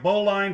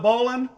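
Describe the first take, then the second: First: The word ends with a full 'line' sound. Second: The word ends with a short, reduced 'lin' sound. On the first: The speaker calls it wrong. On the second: The speaker calls it right.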